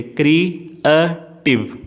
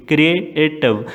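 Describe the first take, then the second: First: क्रिएटिव drawn out very slowly, each of its three syllables apart. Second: Said in the usual way. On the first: Shown as a demonstration. (क्रिएटिव को धीरे-धीरे अक्षर-अक्षर तोड़कर) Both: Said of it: "three syllable कौन से हैं क्रिएटिव के".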